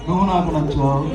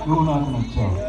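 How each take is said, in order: First: It is said in a thin, light voice. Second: The same.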